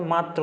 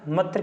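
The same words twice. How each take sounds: First: मात्र with a long open aa; correct long vowel. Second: मत्र with a short a, like muh-tr; wrong short vowel. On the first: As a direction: say मात्र as maa-tr. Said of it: "मात्र होता है". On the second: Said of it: "मत्र क्या word होता है". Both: Shown as a demonstration.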